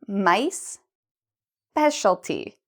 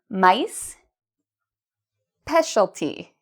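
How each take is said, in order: Both takes have the same delivery.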